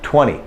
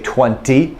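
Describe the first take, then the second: First: The T after the N is dropped. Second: The T after the N is clearly pronounced. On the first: This is the everyday casual way to say it. "that's the way I say it" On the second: The speaker wants to be extra clear. "if I want to clarify, I say twenty"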